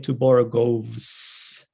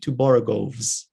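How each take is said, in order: First: The plural ending is a hissing s sound. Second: The plural ending is a buzzing z sound. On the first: The speaker calls it wrong. "Nobody will say" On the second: The speaker calls it right. "it will come out as a Z"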